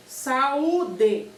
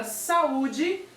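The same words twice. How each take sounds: First: "Saúde" as separate beats, sa, u, de; syllable by syllable. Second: Said in the usual way. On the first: Shown as a demonstration. Teacher showing the vowel encounter, "Saúde" syllable by syllable. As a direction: pull the vowels of "Saúde" apart. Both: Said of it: "separar essa palavra em sílabas".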